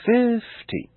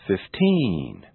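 First: "fifty" with a long, high FIIIF and short ending; exaggerated first-syllable stress. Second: "fifteen" with a long drawn-out TEEEN; exaggerated final stress. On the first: Teacher exaggerating so it's easier to notice, "fifty" with lengthened FIF. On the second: Teacher exaggerating so it's easier to notice, "fifteen" with lengthened TEEN. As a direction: stretch the last vowel of "fifteen". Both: Shown as a demonstration. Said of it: "I will exaggerate them first".

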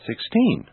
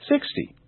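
First: Put-on "sixteen" stressed on TEEN without dragging; natural final stress. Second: "sixty" stressed on a high SIX, short ending; natural first-syllable stress. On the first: Teacher now saying them naturally, "sixteen" stressed on TEEN. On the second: Teacher now saying them naturally, "sixty" stressed on SIX. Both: Shown as a demonstration. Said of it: "Now I'll say them naturally".

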